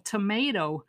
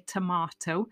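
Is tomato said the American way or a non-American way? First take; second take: American; non-American. First: The word is said in an American accent. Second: The word is said in a non-American accent. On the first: "as they say in the States" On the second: "I'll say tomato"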